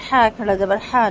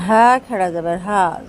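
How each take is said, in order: First: ہا with a light throat h, the wrong way. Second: ہا from deep in the throat near the chest. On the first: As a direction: say ہا from the front as the mistake. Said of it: "نہیں پڑھیں گے". (غلط ہا، ہلکی آواز) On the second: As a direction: push ہا up from the chest, heavy. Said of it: "بالکل سینے کے قریب سے". (حلق کے آخری حصے سے بھاری ہا) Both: Shown as a demonstration.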